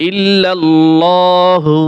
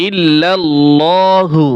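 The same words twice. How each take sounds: Both takes have the same delivery.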